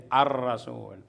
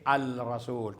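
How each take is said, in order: First: The L is merged into a doubled r. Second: The L is clearly pronounced before the r. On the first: The speaker calls it right. "kundi ar-rasul" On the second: The speaker calls it wrong. "at hindi al-rasul"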